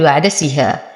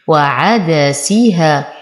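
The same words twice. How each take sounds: First: وعدسها hurried, short syllables squeezed together; snatched vowels. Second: وعدسيها slow, each short syllable evenly sounded; measured وعدسيها, nothing snatched or rushed; every vowel given full time. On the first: Teacher showing what not to say, rushed syllables in وعدسها. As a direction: clip through وعدسها without full vowel time. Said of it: "ولا أقول". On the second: Teacher showing the correct reading, slow even syllables in وعدسيها. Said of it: "إعطاء كل حرف حقه". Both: Shown as a demonstration.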